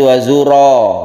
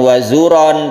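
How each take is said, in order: First: The word ends with a lengthened vowel, no n. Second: The word ends with a short vowel and n. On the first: The speaker calls it right. "tapi wazuro, ro terus dipanjangkan" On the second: The speaker calls it wrong. "bukan wazuron"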